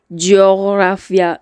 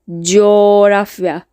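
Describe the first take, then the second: First: A hard g sound is heard mid-word. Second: The vowel is lengthened with no g sound. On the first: The speaker calls it wrong. "We don't say coğrafya. No, no, no" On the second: The speaker calls it right. "Just make the vowel in front of it little bit longer"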